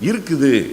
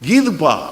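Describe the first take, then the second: First: The word is said in its full form. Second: The word is clipped to a short form. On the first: This is how people around Madurai say it. "Madurai, Sivakasi, Virudhunagar பக்கம் வந்துச்சு அப்படின்னா" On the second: This is how people in Chennai say it. "எங்க ஊர்ல எல்லாத்தையும் நாங்க சுருக்கிடுவோம்"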